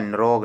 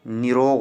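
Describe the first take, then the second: First: "निरोग" without the i after n; wrong form demonstrated. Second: "निरोग" with a clear i after n; correct form demonstrated. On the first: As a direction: squeeze "निरोग" into n-rog. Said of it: "निरोग नहीं होता". ("निरोग" बिना इ के) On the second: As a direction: say "निरोग" as ni-rog. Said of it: "निरोग होता है". ("निरोग" में नि साफ़) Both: Shown as a demonstration.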